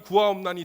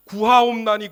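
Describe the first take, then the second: First: Said in the usual way. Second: A desperate cry to God, louder; loud pleading cry. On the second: Retold or imitated. 두 번이나 반복하면서.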